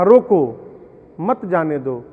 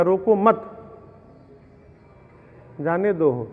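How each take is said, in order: First: "रोको" called out loud, then a pause, then "मत जाने दो" as one phrase; pause after rokō. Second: "रोको मत" said as one phrase, a long pause, then "जाने दो"; pause after mat. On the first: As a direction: break the line right after "रोको", so it means stop him, don't let him go. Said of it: "पिता ने कहा". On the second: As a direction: join "रोको मत" and break before "जाने दो", so it means don't stop him, let him go. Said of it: "लड़िकवा सुन लिया". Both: Retold or imitated.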